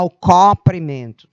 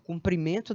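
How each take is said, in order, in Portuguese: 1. O primeiro O da palavra é aberto. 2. O primeiro O da palavra é fechado. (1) "Ninguém anda mostrando o O aberto nessa palavra" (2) "Sempre se pronuncia o O fechado"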